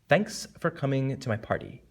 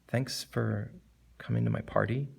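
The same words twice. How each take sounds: First: It is said in a pretentious tone. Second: It is said in a regretful tone. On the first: "Or pretentious" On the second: "as opposed to regretful"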